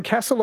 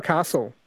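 First: "castle" with the flat a of cat, KASS-ul; short-a pronunciation. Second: "castle" with a long ah, KAH-sul; long-a pronunciation. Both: Shown as a demonstration. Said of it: "castle or castle?".

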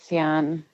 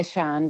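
First: Sian said in two syllables, "see-AHN"; preferred pronunciation. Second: Sian said as one syllable, "Shahn"; alternative pronunciation. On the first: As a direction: say Sian with a clear s and ee, then ahn. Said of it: "but I'm happy with Sian". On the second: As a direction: say Sian with an opening sh sound, like Shawn. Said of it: "Some people say Sian". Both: Shown as a demonstration.

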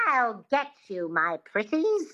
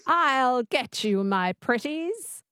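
First: Wicked Witch voice. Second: Slow, careful attempt at a witchy twang; host copying the coach's witch, half-confident; trying the witch voice. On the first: Coach models the line for the host to copy. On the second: Radio host imitates the witch line on request. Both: Shown as a demonstration. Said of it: "Just say that".

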